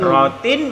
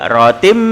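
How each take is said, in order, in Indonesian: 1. Kata ini diakhiri dengan bunyi n biasa. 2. Kata ini diakhiri dengan bunyi m.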